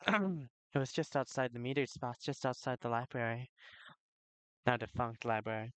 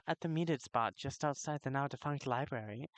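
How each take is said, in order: First: Said in the usual way. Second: Accidental, badly done British accent; shaky attempt at sounding British. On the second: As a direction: slip into a clumsy British accent. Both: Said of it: "I gotta stop that accent".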